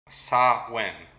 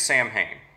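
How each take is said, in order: First: It is pronounced with no m or h, like sow-in. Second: It is pronounced letter by letter, like sam-hain. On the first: The speaker calls it right. "how you correctly say it" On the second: The speaker calls it wrong. "if you're just going to pronounce it as it looks like it's spelled"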